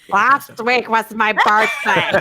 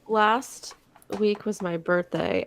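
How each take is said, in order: First: It is said in a put-on impression voice. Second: It is said in a natural, everyday voice.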